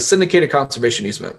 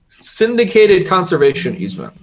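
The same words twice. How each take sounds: First: The phrase is said at a normal, quicker pace. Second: The phrase is said slowly and deliberately.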